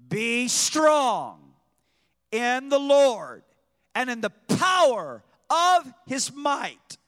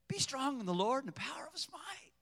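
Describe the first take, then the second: First: It is said passionately, with fiery force. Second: It is said hesitantly, without force.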